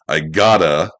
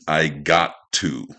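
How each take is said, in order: First: The words run together into a reduced form. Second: Each word is said fully and separately. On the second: "is I got to"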